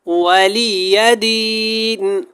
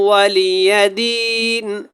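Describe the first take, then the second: Both takes have the same delivery.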